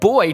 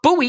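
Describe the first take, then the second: First: The word sounds exactly like 'boy'. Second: The word sounds different from 'boy'. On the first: Listeners here would hear the word for a young male. "if I said boy to someone here, they would assume I was talking about a small human" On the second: Listeners here would hear the word for a floating marker. "But buoy is what we call it here"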